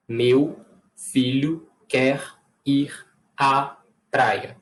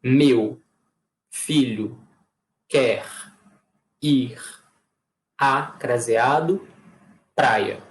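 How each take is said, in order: First: Slower on "filho quer", short breaks before "ir à praia"; "Meu filho quer ir à praia" with a little tune back; slower phrased take; second reading. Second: Each word flat and separate, long pauses between; flat word-by-word dictation; no intonation. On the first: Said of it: "dois sentidos completamente diferentes". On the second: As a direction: read "Meu filho quer ir à praia" word by word with no tune, as if writing it. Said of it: "Eu vou falar sem entonação nenhuma". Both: Shown as a demonstration.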